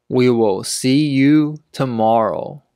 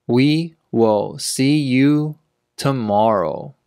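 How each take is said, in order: First: Said in the usual way. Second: Word by word, with clear gaps. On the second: Shown as a demonstration. Teacher repeats sentence slowly for learners.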